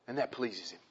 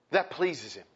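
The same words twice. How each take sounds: First: Quiet. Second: Said in the usual way. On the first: Shown as a demonstration.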